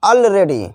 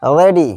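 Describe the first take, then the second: First: Said in the usual way. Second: "already" pulled apart as all, ready; split into two words. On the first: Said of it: "equal to already". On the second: Shown as a demonstration. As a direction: pause between the two halves of "already". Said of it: "इसका भी संधि विच्छेद है".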